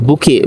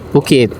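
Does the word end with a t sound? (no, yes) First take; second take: no; yes. First: The word ends without a final t sound. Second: The word ends with a final t sound. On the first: This is how local people say it. "di sini orang bilang buki" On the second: This is the standard form of the word. "bukan bukit"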